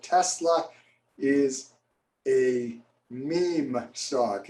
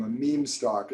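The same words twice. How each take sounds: First: Meme stock drawn out very slowly; slow quoted phrase. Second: Said in the usual way. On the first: Retold or imitated. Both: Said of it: "heard of that term, a meme stock".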